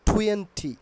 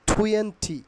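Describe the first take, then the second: No difference in how they are said.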